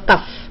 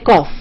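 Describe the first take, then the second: First: The vowel sounds like the one in tough. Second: The vowel sounds like the one in off. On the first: The speaker calls it wrong. "all our students will say" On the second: The speaker calls it right. "they won't say cough"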